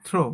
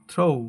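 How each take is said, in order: First: "throw" as a short "thro"; no glide on the o of "throw"; common local pronunciation. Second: "throw" as "throh-oo"; correct pronunciation. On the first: Teacher showing how we say it, "throw" with flat short o. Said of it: "এটাকে আমরা বলি". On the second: Teacher modelling the correct word, "throw" with gliding o-u. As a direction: let the o of "throw" slide into oo. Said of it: "সঠিক উচ্চারণ হবে". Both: Shown as a demonstration.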